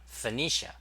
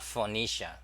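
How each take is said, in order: First: Phoenicia with a reduced first vowel, fuh-NEE-shuh; correct pronunciation. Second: Phoenicia with a full O in the first syllable, foh-NEE-shuh; mistaken pronunciation. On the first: Streamer correcting the word for viewers, correct pronunciation. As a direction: lift the stressed NEE in Phoenicia after a light "fuh". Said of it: "so it's pronounced Phoenicia". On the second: Streamer showing viewers how not to say it, mistaken pronunciation. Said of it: "not Phoenicia". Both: Shown as a demonstration.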